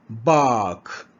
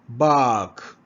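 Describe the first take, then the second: The two takes are said the same way.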